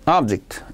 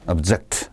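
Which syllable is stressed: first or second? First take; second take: first; second. First: The stress is on the first syllable. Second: The stress is on the second syllable. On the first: It is used as a noun. "이 명사고요" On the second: It is used as a verb. "이건 동사입니다"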